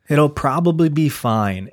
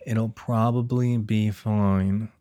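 First: Higher, louder and drawn out; emphatic reassurance. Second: Very slow, stretched-out words at usual pitch; slow mock reassurance. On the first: Pretend. Worried dad-to-be convincing himself, loud emphatic reassurance. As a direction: insist on it, pitched up and slowed. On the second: Worried dad-to-be repeating it to himself, slow drawn-out reassurance. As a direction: drag each word out like a mantra.

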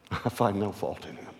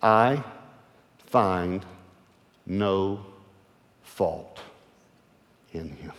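First: Said in the usual way. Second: A slow quoted verdict, word by word. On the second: Shown as a demonstration. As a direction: lay out I, find, no, fault one at a time. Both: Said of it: "Here's the exact quote".

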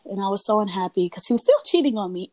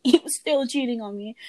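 First: Said in the usual way. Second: Higher, laughing in disbelief. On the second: Real, not acted. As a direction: laugh it out, incredulous. Repeats the line, laughing.

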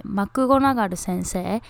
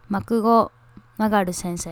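First: マクゴナガル先生 in even katakana syllables; Japanese pronunciation. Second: マクゴナガル先生 with English stress on GO; English pronunciation. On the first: Host recalls the Japanese name, katakana マクゴナガル. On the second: Host contrasts names, English-style マクゴナガル. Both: Shown as a demonstration. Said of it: "日本語でなんだっけ".

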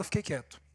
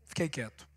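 First: Softly, drawing back into silence; a hushed admission; quiet. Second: Barely voiced, almost to himself; very quiet. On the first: Retold or imitated. To the audience, admitting he kept silent, quietly. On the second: Repeating to himself that he stayed silent, near a murmur. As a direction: let it die away to nothing. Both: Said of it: "Só que eu não falei nada".

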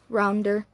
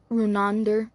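First: Rounder said like round-er; the first, wrong try at the name Rounder; misread name. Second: Fix the name to Runander; corrected name. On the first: The reader slips on the surname, saying Rounder. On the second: The reader corrects himself, saying Runander firmly. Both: Real, not acted.

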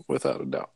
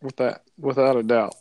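First: A low rumbling echo of his own words; deep echo. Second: Said in the usual way. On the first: Acted. Agreeing with a friend about grandpa's drinks, deep mock echo. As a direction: drop the repeat far lower and softer. Repeats agreement, much deeper.

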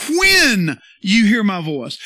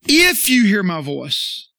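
First: "When" drawn out long and loud; slow right down and land hard on "When"; stress on When. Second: Slow line with "If" punched loud; stress on If. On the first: Preacher giving the verse's true word, stress on "When". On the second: Preacher correcting a misreading of scripture, stress on "If". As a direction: stretch and hit "If" as the rejected word. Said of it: "It didn't say". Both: Shown as a demonstration.

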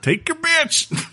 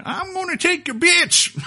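First: Put-on very high, slow crazy old coot; old prospector. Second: Put-on high, slow crazy old prospector voice; cackling old prospector. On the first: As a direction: squeak it out like a mad prospector. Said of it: "I'm playing as a crazy prospector". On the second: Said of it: "as an old prospector going".

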